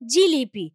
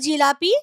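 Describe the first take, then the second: First: The middle vowel sounds like 'i'. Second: The middle vowel sounds like 'a'. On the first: This form is easier to say. "উচ্চারণকে সহজ করবার জন্য" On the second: This is the original form. "শব্দটা আসলে ছিল"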